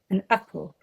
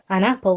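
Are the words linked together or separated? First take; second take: separated; linked. First: The two words are chopped apart with a break. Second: The two words run smoothly together. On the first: "we'd have an apple" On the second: "we wouldn't have an apple"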